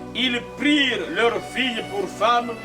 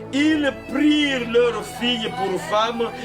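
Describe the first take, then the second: The two takes are said the same way.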